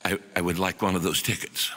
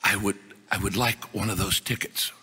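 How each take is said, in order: First: Put-on soft, halting Chinese-accented English, lower and quieter; humble Chinese professor repeating his request in broken English; lightly voiced Chinese accent, hesitant and lower. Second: Put-on soft, halting Chinese-accented English, lower and quieter; a humble Chinese professor asking in careful broken English; lightly voiced Chinese accent, hesitant and lower. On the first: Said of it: "again says". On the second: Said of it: "says to me in broken English".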